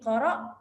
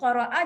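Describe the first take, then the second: First: The word ends on the glottal stop. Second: The word ends with a short vowel.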